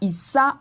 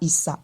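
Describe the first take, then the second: First: The pitch rises on the final vowel. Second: The pitch falls on the final vowel. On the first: "on monte avec l'intonation du A" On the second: "on descend avec l'intonation du A"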